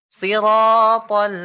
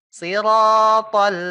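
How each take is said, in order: The two takes are said the same way.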